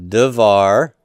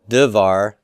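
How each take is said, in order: The two takes are said the same way.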